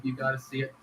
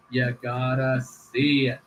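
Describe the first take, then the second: First: Said in the usual way. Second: You gotta SEE it, slowed, with the word SEE leaned on and falling; urging the viewers, slow and emphatic; slow emphatic insistence. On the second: Shown as a demonstration. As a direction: drag it out to sell the clip, landing hard on SEE.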